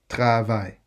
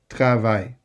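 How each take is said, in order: The two takes are said the same way.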